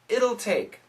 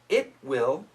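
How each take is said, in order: First: The words are merged into one contracted form. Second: Both words are said fully as two syllables.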